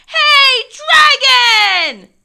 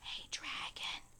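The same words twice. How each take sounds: First: It is shouted very loudly. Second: It is whispered very softly.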